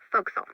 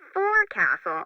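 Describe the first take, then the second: First: The syllables are squeezed into a short form. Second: All syllables are said as written.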